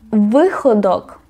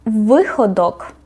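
The two takes are said the same way.

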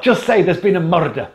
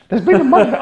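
First: Said in the usual way. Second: Higher, mock Glaswegian "There's been a murder"; Scottish "There's been a murder", a bit louder and higher; Scottish accent. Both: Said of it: "that accent out of that face".

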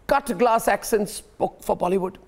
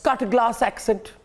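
First: Said in the usual way. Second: Slow, drawn-out mock posh English accent on "cut glass accent"; lightly mocking upper-class English accent. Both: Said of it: "in a cut glass accent".

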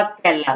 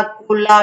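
First: केला said with a clear e, "kela", as the right answer; correct word. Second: कोला said with an o, "kola", as the wrong choice; कोला read out as the mistaken option. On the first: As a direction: give केला as the correct form. (सही शब्द "केला") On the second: (गलत विकल्प "कोला") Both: Shown as a demonstration. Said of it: "केला होता है पहले वाला सही है".

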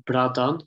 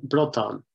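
First: Bradon with an open A; bradon, first vowel A, not U; original form. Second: Brodon with U as in "put"; brodon, first vowel rounded, not A; dialect pronunciation. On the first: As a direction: say bradon as "BRAD-awn". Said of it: "changing to brodon". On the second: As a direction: say brodon as "BRUUD-awn". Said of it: "you get a pronunciation of a word". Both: Shown as a demonstration.

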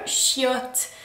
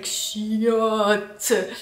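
First: Said in the usual way. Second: "Chiotte" spat out with distaste; mock grossed-out "Chiotte"; disgusted chiotte. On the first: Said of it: "so close to the English word shit". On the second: Shown as a demonstration. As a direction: say "Chiotte" like it's dirty. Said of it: "It's like".

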